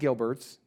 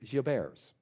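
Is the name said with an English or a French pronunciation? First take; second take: English; French. First: The name is said with an English pronunciation. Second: The name is said with a French pronunciation. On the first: The speaker calls it wrong. "So it's not" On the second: The speaker calls it right. "The correct pronunciation, I'm told, is"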